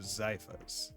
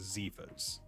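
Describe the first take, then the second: First: The first vowel is a long 'eye' sound. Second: The first vowel is not a long 'eye'. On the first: The speaker calls it right. "so long I" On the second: The speaker calls it wrong. "I was going to pronounce it Zephas"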